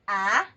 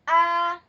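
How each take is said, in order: First: The syllable is said in the rising second tone. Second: The syllable is said in the first tone. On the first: "it goes up" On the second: "That's a first"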